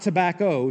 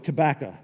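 First: The word is said in a standard pronunciation. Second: The word is said in a Tennessee pronunciation. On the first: The speaker calls it wrong. "Not tobacco" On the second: The speaker calls it right. "That's how you pronounce it in Tennessee"

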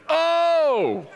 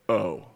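First: It is said forcefully, with strong emotion. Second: It is said flatly, without force.

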